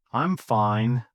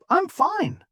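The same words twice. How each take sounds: First: Low-pitched bad-day reply; flat, low, dejected. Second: High, happy reply; upbeat, cheerful. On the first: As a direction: say it flatly, as after a bad day. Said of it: "Flat, low, falling". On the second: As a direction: answer brightly with a much higher pitch. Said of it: "Upbeat, cheerful, rising slightly". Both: Shown as a demonstration.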